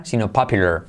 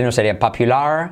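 First: "popular" said as papjular, R swallowing the vowel; teacher modeling the right popular; correct popular. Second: "popular" with a full Spanish pal; student saying popular the wrong way. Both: Shown as a demonstration.

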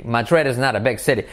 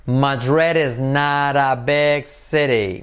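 First: Fast, "not" tapped like "nar"; quick run-through. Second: Slow, with "not" said as "nar"; slow model sentence. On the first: Teacher repeating the sentence at natural speed. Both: Shown as a demonstration. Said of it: "Not se convierte en un R suave".

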